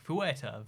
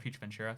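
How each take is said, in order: First: The name starts with a fwer sound. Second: The name starts like the English word future. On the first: The speaker calls it right. "I think it's like Fuerteventura" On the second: The speaker calls it wrong. "I don't think it's pronounced that way"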